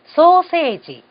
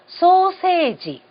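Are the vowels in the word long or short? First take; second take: long; long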